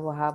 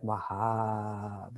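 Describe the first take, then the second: First: The word is said quickly with short vowels. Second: The word is said slowly with long, resonant vowels. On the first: The speaker calls it wrong. "we're not just saying Wahab" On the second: The speaker calls it right. "It's like Wahab. And we're just letting it vibrate in our chest"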